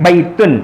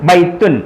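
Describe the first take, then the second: No difference in how they are said.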